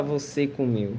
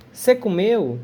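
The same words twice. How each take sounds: First: "você comeu" with both syllables of você, quieter; full você. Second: "Cê comeu?" clipped and casual; colloquial cê. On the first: Teacher gives the full form students would not hear. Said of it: "A gente não fala". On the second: Teacher contrasts casual Brazilian speech for students. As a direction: say "Cê" instead of the full word. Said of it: "A gente não fala "você comeu". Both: Shown as a demonstration.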